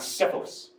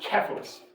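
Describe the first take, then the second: First: The name begins with a soft s sound. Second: The name begins with a hard k sound. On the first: The speaker calls it wrong. "It's not Cephalus" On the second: The speaker calls it right. "It is Cephalus. ... the C is always, always, always a k sound"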